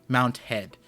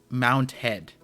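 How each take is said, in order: The two takes are said the same way.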